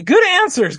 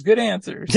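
First: Loud, high game show host call. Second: Said in the usual way. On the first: Pretend. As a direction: call it out like a Family Feud host. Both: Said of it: "it's like the Family Feud".

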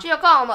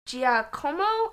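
First: Louder "Giacomo" with a playful Italian lilt; put-on Italian accent. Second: "Giacomo" sounded out slowly, questioning rise; unsure pronunciation. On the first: Shown as a demonstration. Correcting the saint's name, hammed-up Italian accent. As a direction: hit it with a mock Italian accent, falling at the end. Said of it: "If you just say it in Thai accent". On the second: Real, not acted. Guest trying a saint's name, unsure slow "Giacomo". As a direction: say "Giacomo" slowly and tentatively, as if asking. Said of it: "I'm sorry if I'm pronouncing".

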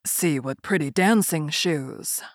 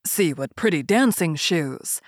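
First: Put-on low, slow, eerie old soldier; a calm, sinister old soldier; low gravelly dry calm. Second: Put-on low, slow old soldier voice; a calm, lightly voiced old soldier; low gravelly dry calm. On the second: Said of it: "the old soldier said". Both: A narrator's reading.

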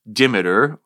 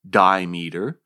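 First: "dimeter" as DIM-i-ter, short first vowel; short-i pronunciation. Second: "dimeter" as DIE-mee-ter; long-i pronunciation. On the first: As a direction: say "dimeter" to rhyme with perimeter's ending, DIM-uh-ter. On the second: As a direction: say "dimeter" like "die" plus "meter". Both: Shown as a demonstration. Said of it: "Two is dimeter, dimeter".

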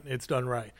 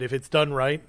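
First: Done said lower and falling, softer, as a conclusion; falling take. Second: Done said with a rise, as a condition; rising take. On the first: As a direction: drop done right down to settle it. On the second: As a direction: lift done right upward like a setup. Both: Shown as a demonstration. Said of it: "like you said".

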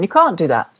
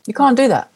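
First: Said in the usual way. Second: You can't do that, with can't pushed high; emphatic repeat. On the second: Real, not acted. To the interviewer, insisting on the point, emphatic high can't. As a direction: lift the pitch on can't and land it hard.

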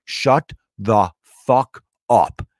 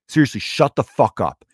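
First: Slow, word by word, with pauses; emphatic retort. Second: Firm follow-up. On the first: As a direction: spell out the command one word at a time. Retold telling-off of heckler. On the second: Comic following up to a heckler, firmly matter-of-fact. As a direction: command run together at talking pace. Same command repeated in one run. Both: Retold or imitated.

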